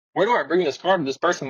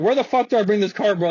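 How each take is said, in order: First: Said in the usual way. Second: Mildly heated retold demand, raised pitch; getting mad. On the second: Valet demands directions from unhelpful staff, getting mad. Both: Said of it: "I started getting mad".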